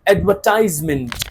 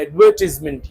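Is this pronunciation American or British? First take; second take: American; British. First: It is pronounced the American way. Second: It is pronounced the British way. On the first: "American क्या बोलते हैं" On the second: "ये British बोलते हैं"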